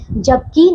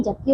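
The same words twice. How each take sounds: First: जबकि with a long, stressed "kee"; mispronounced word. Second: जबकि with a short, softer "ki"; correct pronunciation. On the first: Teacher shows pupils the wrong word, mispronounced. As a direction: stretch the end of जबकि. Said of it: "नहीं". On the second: Teacher corrects the word for pupils, properly pronounced. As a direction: keep the end of जबकि short. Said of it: "जबकि होता है". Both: Shown as a demonstration.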